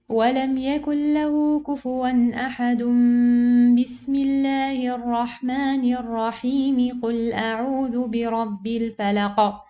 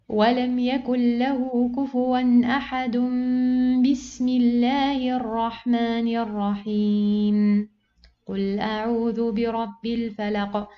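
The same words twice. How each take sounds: First: It runs through with no pause at all. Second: It pauses after the basmala, not before it. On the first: The speaker calls it right. "joining all together" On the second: The speaker calls it wrong. "I joined these two parts, and then I pause"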